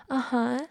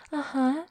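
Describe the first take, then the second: No difference in how they are said.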